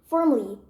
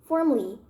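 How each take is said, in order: The two takes are said the same way.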